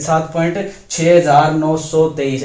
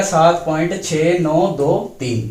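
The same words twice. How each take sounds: First: सात point छह हजार नौ सौ तेईस with the digits after the point read as one big number; wrong way, as a whole number. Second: सात point छह नौ दो तीन with each digit after the point said on its own; digit by digit, correct way. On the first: Teacher showing students the wrong reading, as a whole number. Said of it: "ऐसे नहीं पढ़ा जाएगा". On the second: Teacher showing students the right reading, digit by digit. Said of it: "तो ये ऐसे पढ़ा जाएगा". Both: Shown as a demonstration.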